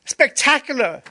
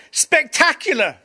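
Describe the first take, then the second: First: Much higher, louder delighted repeat; excited exclamation repeated. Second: Much higher, louder, thrilled cry of Greg; excited exclamation. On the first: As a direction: shout it again with wonder. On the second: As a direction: burst out with joy. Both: Retold or imitated. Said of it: "he said".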